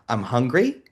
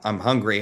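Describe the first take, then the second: First: The voice rises at the end. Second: The voice falls at the end. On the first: It asks oneself whether it is true. "change the inflection, change the belief by saying" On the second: It states a fact. "instead of acknowledging"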